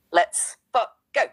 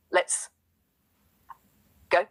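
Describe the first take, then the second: First: A much higher, louder hype shout; let's go yelled with full power; full chest. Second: Whispered. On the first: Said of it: "let me run that back with the full chest". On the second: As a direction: say it under your breath. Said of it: "you whispered the L F G". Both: Real, not acted.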